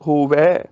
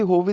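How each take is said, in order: First: ਹੋਵੈ slow, with open ai; correct ending. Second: ਹੋਵੇ quick, with narrow e; wrong ending. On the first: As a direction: stretch the ai of ਹੋਵੈ. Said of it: "ਹੋਵੇ ਦੀ ਬਜਾਏ". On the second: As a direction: close ਹੋਵੇ briskly on e. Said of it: "ਦੀ ਬਜਾਏ". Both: Shown as a demonstration.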